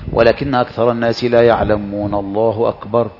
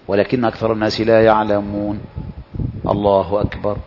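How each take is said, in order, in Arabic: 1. تُقرأ العبارتان متصلتين بلا سكتة. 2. توجد سكتة قصيرة قبل "الله أكبر". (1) "لا يسكت" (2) "هذه السكتة سكتة تليق بها"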